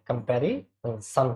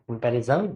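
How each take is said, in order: First: The last syllable does not sound like 'jan'. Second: The last syllable sounds like 'jan'. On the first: The speaker calls it right. "कंपैरिजन होता है" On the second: The speaker calls it wrong. "जन नहीं होता है, ध्यान रखना, ये गलत है"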